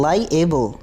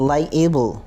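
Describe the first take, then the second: The two takes are said the same way.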